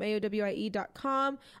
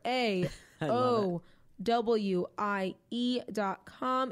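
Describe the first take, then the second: First: The letters are spelled out at normal speed. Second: The letters are spelled out slowly and deliberately.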